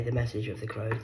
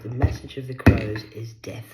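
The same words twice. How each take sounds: First: Said in the usual way. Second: Message punched loud and ominous; loud ominous declaration. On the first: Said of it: "repeated phrase, plain take". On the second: Shown as a demonstration. Warning the viewer, loud and ominous. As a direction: boom it out like a prophecy. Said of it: "repeated phrase, loud take".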